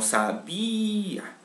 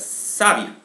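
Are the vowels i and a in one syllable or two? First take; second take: two; one. First: The i and a are broken into two syllables. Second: The i and a sound together in one syllable. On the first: The speaker calls it right. "sino sabía" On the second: The speaker calls it wrong. "Donde la I, A suenen juntas"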